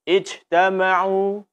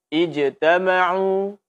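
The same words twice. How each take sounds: First: The jim is released loosely, sounding like sh. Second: The jim is a firm, held j sound. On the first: The speaker calls it wrong. "Jangan sampai kita baca" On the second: The speaker calls it right.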